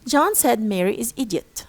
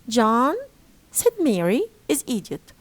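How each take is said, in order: First: It is split into units after said. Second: It is split into units around said Mary. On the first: Mary is the one called an idiot. "Who is idiot in the first sentence? It's Mary" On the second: John is the one called an idiot. "And in the second, it's John"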